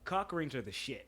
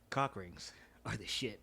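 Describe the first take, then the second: First: It is said in a joking, unserious tone. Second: It is said in a more serious tone.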